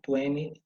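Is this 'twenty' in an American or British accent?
American. It is said with an American accent. "no inglês americano"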